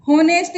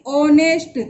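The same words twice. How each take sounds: First: होनेस्ट with an audible h at the start; होनेस्ट read as spelt, h pronounced; sounded H. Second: ऑनेस्ट said vowel-first, no h; ऑनेस्ट as a teacher's model, starting on o; silent H. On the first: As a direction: wrongly voice the h in होनेस्ट. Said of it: "होनेस्ट इसको नहीं पढ़ेंगे". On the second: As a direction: drop the h from ऑनेस्ट entirely. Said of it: "इसका उच्चारण ऑनेस्ट हो रहा है". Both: Shown as a demonstration.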